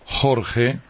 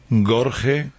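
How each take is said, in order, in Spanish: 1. El nombre empieza con el sonido J normal. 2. El nombre empieza con el sonido G fuerte. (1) "as usual" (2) "si metemos la G a todo"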